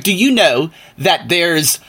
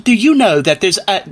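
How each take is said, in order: First: Said in the usual way. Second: Higher-pitched mock British accent. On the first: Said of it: "well, I'm sorry". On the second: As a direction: put on a British accent for the older guy. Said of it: "that's the British accent".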